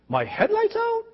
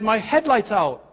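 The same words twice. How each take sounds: First: It rises like a surprised, disbelieving question. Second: It is said flatly as a plain statement. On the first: The speaker pretends not to have known. "And you say, "What?" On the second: The speaker simply states the fact. "I said the truth"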